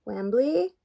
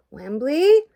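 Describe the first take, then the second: First: Light questioning call, pitched up at the end; raised, rising call. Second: Loud, high, rising shout; storming-in shout, swooping upward; angry yell. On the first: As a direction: call out for someone as you come in. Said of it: "Gobo called out". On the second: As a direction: yell the name as an angry demand. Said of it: "Gobo yelled, looking very angry indeed". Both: A narrator's reading.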